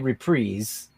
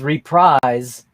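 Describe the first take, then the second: First: The second syllable does not sound like 'prize'. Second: The second syllable sounds like 'prize'. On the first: The speaker calls it right. "we say reprise" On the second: The speaker calls it wrong. "reprise sounds like your first prize broke"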